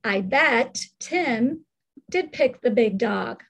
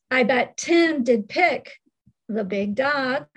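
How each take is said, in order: First: Slow "I bet Tim", pause, then "did pick the big dog"; scooped phrasing. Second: "I bet Tim did pick" as one phrase, then "the big dog"; group "I bet Tim did pick" together, pause before "the big dog"; scooped phrasing. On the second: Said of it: "It could be scooped that way". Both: Shown as a demonstration.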